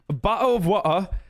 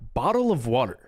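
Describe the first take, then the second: First: It is said in a British accent. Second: It is said in an American accent. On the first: "he went from"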